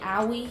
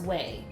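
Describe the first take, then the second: First: The name is said as two syllables, 'owie'. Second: The name is said as one syllable, 'way'. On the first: The speaker calls it wrong. "I was so wrong" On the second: The speaker calls it right. "it says it's pronounced way"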